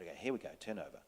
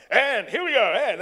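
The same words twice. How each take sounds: First: Soft, low, hushed set call; gentle tone. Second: Loud, high, brash set call; wrong tone. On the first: First AD quietly cueing an actor who is ready, gentle. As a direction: call it gently so as not to break the moment. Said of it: "in that tone, not". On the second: First AD wrongly blaring the cue at a fragile actor, brash. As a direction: bellow it out brashly, breaking the mood. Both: Retold or imitated.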